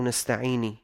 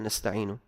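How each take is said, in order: First: نستعيني said "nasta'ini", ending in i; kasra on nun. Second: Said in the usual way. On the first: Shown as a demonstration. Teacher showing a mistake, نستعيني said "nasta'ini". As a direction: put an i vowel on the last nun, نستعيني. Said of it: "بكسرها". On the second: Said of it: "قال بدل".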